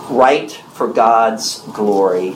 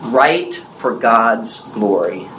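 First: Slow, weighty repeat of the point; deliberate sermon point repeated; slow emphatic repeat. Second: Slow, weighty, each word set down; deliberate sermon point; slow emphatic. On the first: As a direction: say it once more, slowly, to drive it home. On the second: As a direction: spell it out slowly for the congregation. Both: Shown as a demonstration. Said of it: "this is so very important".

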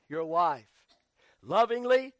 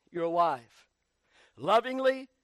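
Both takes have the same delivery.

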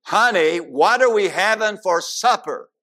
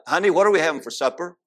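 First: Louder and higher, almost shouting the question; loud call. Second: Husband calling to wife. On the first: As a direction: raise your voice so she finally hears. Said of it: "He got a little closer". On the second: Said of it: "talked a little louder". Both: Retold or imitated.

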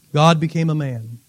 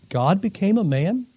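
First: "God became a man." lower, falling at the end; statement tune. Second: "God became a man?" softly, rising at the end; questioning tune. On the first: Preacher answering from verse fourteen, low falling statement on "God became a man.". Same words restated as fact. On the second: Preacher posing verse fourteen to the congregation, soft rising question on "God became a man?". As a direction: ask "God became a man?" in quiet wonder, pitch lifting on the last word. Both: Acted.

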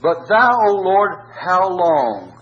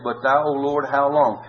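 First: High, slow pleading lament to God; anguished cry. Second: Said in the usual way. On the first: Acted. Preacher voicing David's plea to the Lord, anguished. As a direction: cry it out as a plea, higher and louder.

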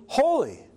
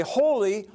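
First: Holy lifted high at its peak, then falling; emphatic holy. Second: Said in the usual way. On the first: Shown as a demonstration. The angels praise God, climaxing on holy. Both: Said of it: "they would repeat things for emphasis".

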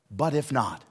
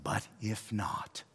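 First: Said in the usual way. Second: "But if not." slowed right down, every word weighted; "But if not." said quietly and very slowly; slow, weighty. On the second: Shown as a demonstration. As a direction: linger on "But if not." as a solemn vow. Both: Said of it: "close it with these words".

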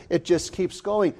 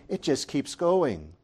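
Both takes have the same delivery.

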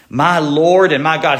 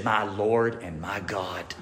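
First: Said in the usual way. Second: Low, soft and slow, Thomas on his knees; hushed awe. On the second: Retold or imitated. Thomas falling down before Jesus, hushed awe. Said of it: "he fell down and he said".

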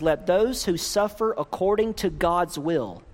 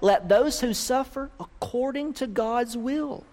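First: Said in the usual way. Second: THOSE lifted, rising higher at the end; stress on THOSE. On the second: Shown as a demonstration. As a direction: lean on "those" and let it rise like a question. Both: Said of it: "Did you catch that?".

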